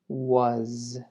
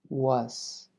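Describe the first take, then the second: First: The word ends with a buzzing z sound. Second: The word ends with a hissing s sound. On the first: The speaker calls it right. "Escuchen bien la pronunciación correcta" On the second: The speaker calls it wrong. "Esto es incorrecto. Esa S es lo que no queremos"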